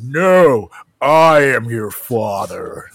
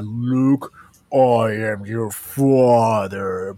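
First: Slow, low, deliberate Vader line; drawn-out villain reveal, low; Darth Vader quote. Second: Slow, low Vader line; Darth Vader quote. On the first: Host correcting the quote, slow Vader voice. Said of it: "that's not even what he says". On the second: Podcast host quoting the famous Star Wars line, slow Vader voice. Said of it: "the epic "Luke, I am your father" moment". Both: Retold or imitated.

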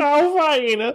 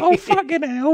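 First: Very high whiny voice; Richard from The Undateables voice. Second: Very high, loud squeal of a king; Henry the fourth voice. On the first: Co-host echoing the king voice, very high whine. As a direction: whine it in the same squeaky voice. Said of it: "mostly Richard from the show". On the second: Demoing the shared king voice, very high loud squeal. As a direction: shriek it like a fed-up king. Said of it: "same Henry the fourth voice". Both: Shown as a demonstration.

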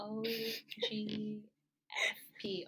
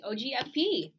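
First: "O G F P" letter by letter, drawn out; slow, deliberate spelling of "O G F P"; spelled out slowly. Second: "O G F P" in one quick, louder go; brisk, emphatic "O G F P" without gaps; run together briskly. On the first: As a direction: stretch each letter of "O G F P" with gaps between. Spells acronym out after being asked. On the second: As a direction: reel off "O G F P" higher and punchier. Repeats spelled acronym as a name. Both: Shown as a demonstration.

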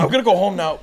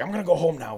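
First: Higher, louder mock of a sheepish exit; hammed-up crackhead line. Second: Sheepish crackhead. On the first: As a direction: ham up the crackhead's goodbye. Repeating Marky laughing. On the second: Retold or imitated. Marky sheepishly leaving.

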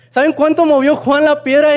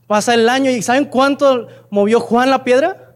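First: Emphatic repeat. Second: Said in the usual way. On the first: Shown as a demonstration. Preacher presses the congregation, louder and higher.

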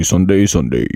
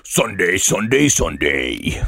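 First: Loud announcer Sunday, Sunday; monster truck ad. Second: Rising then dropping Sunday, Sunday, Sunday; monster truck ad. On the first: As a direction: pump it like a radio spot. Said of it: "when's the monster truck rally". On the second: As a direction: punch each Sunday like an ad. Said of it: "you could do better". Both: Pretend.

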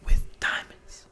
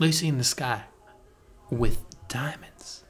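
First: Breathy whisper of with diamonds; slow mock whisper; whispered echo. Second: Dreamy mock Beatle. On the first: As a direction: hush it out slow and dreamy. Echoes the line whispered. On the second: Dreamy Beatle quoting the song.

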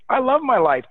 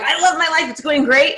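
First: Higher, louder, glowing; mock upbeat answer on a call; enthusiastic greeting. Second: Upbeat and pitched higher; a hint of hammed-up cheer, not full force; mock enthusiastic. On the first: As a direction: answer the phone like life is great. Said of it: "If your response is". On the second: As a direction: radiate cheer at a new acquaintance. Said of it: "you're like".

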